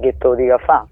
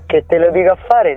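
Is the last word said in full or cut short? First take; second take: cut short; full. First: The last word is cut short, Roman style. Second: The last word is said in full. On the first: The speaker calls it right. "casomai che te lo dico a fa" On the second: The speaker calls it wrong.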